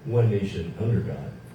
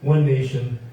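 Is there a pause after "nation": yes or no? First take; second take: no; yes. First: The words run together without a pause. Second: There is a pause after "nation".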